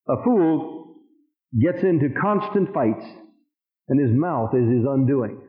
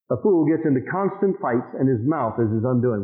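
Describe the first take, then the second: First: Slow reading with long pauses between phrases; deliberate scripture reading. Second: Said in the usual way. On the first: Real, not acted. Preacher reading the Living Bible verse aloud, slow and deliberate. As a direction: read it out slowly, pausing after FOOL and after FIGHTS.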